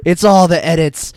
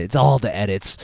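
First: Louder insisting. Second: Said in the usual way. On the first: Real, not acted.

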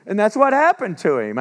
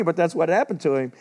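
First: HAPPENED punched high and loud, falling at the end; a preacher's loud, emphatic point; emphatic declaration. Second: Said in the usual way. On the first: Acted. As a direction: drive home that's what happened to him. Preacher stressing Jacob's fate.

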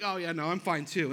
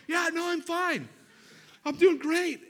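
First: Said in the usual way. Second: Much higher, louder, strained forced cheer; husband overcompensating to his wife in a pinched voice; fake fine. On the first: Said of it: "I was like". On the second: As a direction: insist you're great while clearly dying. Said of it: "And she's like".

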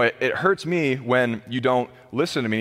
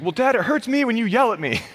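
First: Said in the usual way. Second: Put-on high, small kid voice talking back; little son's voice. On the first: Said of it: "I'm like". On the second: Little son answering his father, imitated in a high child voice. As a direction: play a three-year-old sassing his dad. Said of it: "And he's like".

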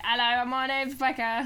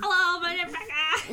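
First: Impression of Becca. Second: Slow, higher and louder Cockney voice; Cockney impression. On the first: [name] imitating her friend Becca with a jokey voice. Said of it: "when we do impressions of people". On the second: Becca doing herself as a comic Cockney kid, slowly. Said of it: "the less Cockney version".

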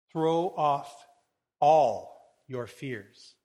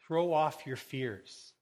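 First: "all" loud and drawn out, pauses between phrases; stress on ALL. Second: Said in the usual way. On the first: Acted. Preacher repeating Jesus' words to listeners, heavy stress on "all". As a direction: punch and stretch "all", slowly.

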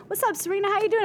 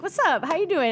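First: High, breezy friendly greeting; casual greeting. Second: A touch higher, slightly starstruck reply; starstruck echo. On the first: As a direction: toss it off like an old friend. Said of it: "come up and go". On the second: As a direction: echo it back, a little dazed. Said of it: "I'm like". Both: Retold or imitated.

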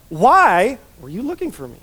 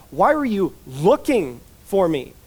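First: Incredulous question leaning on "Why"; stress on WHY. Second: Slow question with LOOKING set apart and weighted; measured delivery, "looking" picked out between small breaks; stress on LOOKING. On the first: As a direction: hit "Why" hard as if puzzled. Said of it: "we read it like this". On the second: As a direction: lean on "looking", leaving "Why" light. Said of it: "it's better to read it as". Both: Shown as a demonstration.

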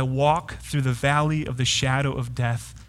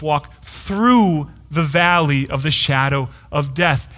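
First: Said in the usual way. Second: "through" drawn out and leaned on, then the rest; stress on THROUGH. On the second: Shown as a demonstration. Preacher quoting Spurgeon to the congregation, stress on "through". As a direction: lean slowly and firmly on the word "through". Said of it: "Emphasis on the word through".

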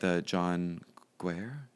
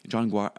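First: Guare said like "gwair", slow, rising and unsure; unsure pronunciation. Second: Guare said like "gwar", falling and settled; corrected pronunciation. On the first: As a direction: slowly try Guare as "gwair" with a questioning rise. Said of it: "is that how you pronounce it?". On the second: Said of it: "I think it's Guare". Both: Shown as a demonstration.

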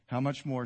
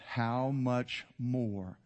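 First: Said in the usual way. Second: "how much more" very slow, each word separate; savoured emphasis. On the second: Real, not acted. Preacher relishing favourite three words, "how much more" drawn out. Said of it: "some of my favorite three words".

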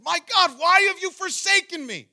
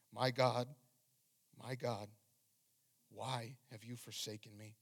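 First: High, full-voiced anguished shout; very loud, high cry of abandonment; crying out in horror. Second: Said in the usual way. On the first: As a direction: cry out to God at full force. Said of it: "he's crying out in horror".

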